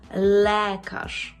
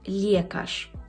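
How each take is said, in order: First: The vowel after L is a plain e. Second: The vowel after L sounds like ye. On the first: The speaker calls it right. "Але е повинно зберегтися е. І ми маємо лекарz" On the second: The speaker calls it wrong. "мої студенти кажуть лєкарz. Це неправильно"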